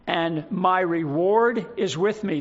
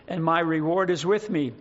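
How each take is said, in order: First: Slower, "reward" weighted and drawn out; slow down and press "reward"; stress on reward. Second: Said in the usual way. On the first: Shown as a demonstration. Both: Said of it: "The emphasis on the word reward again".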